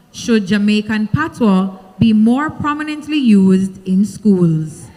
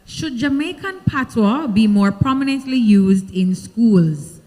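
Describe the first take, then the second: No difference in how they are said.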